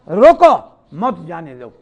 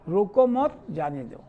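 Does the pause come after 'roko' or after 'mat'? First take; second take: after roko; after mat. First: The pause comes after the word 'roko'. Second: The pause comes after the word 'mat'.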